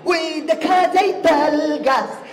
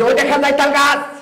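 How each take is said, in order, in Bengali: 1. এটি একজন ব্যান্ড গায়কের ঢঙে আবৃত্তি করা হচ্ছে। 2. এটি একজন জনসভার বক্তার ঢঙে আবৃত্তি করা হচ্ছে। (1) "ব্যান্ডের শিল্পী ... ও আবৃত্তি করবে এইভাবে" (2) "জনসভার নেতা ঠিক এইভাবে বলবে"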